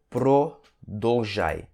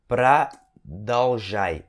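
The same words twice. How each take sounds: First: The unstressed vowels sound like O. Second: The unstressed vowels sound like A. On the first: The speaker calls it wrong. "E não продолжай" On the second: The speaker calls it right. "esses Os aqui, ó, tem tudo som de A. Então você fala продолжай"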